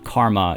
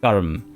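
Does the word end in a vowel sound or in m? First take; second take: vowel; m. First: The word ends with an audible final vowel. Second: The word ends on the m, with no vowel. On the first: The speaker calls it wrong. "karma is not karma" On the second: The speaker calls it right. "it's actually karm"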